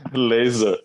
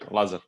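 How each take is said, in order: First: The first name is said like English 'laser'. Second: The first name is said in its original way. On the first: This is how people in the United States said it. The speaker calls it wrong. "everybody was calling me Laser" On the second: This is the real pronunciation of the name. The speaker calls it right. "yeah, Lazar"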